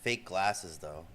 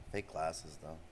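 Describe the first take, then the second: First: Said in the usual way. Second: Softer repeat of "Fake glasses"; quiet aside. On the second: Real, not acted. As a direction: mutter "Fake glasses" under your breath.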